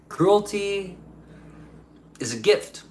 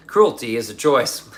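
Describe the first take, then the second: First: Higher, laughing take on Cruelty; Cruelty drawn out high with a chuckle; laughing echo. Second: Said in the usual way. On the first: Shown as a demonstration.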